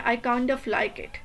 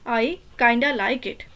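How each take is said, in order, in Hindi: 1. 'kind of' दो पूरे शब्दों की तरह बोला जाता है। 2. 'kind of' घिसकर 'kinda' हो जाता है। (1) "हम फुल काइंड ऑफ बोलेंगे" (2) "नेटिव स्पीकर को देखें उनके नेचुरल टंग में तो वो बोलते हैं"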